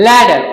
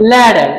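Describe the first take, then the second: No difference in how they are said.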